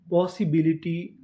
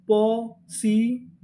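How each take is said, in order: First: Said in the usual way. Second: possibility drawn out slowly part by part; slow blended word. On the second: Shown as a demonstration. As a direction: say possibility slowly, joining syllables. (Possibility धीरे-धीरे जोड़कर) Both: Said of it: "तो पूरी meaning".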